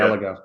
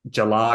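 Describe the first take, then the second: First: The word begins with a hard G sound. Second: The word begins with a J sound.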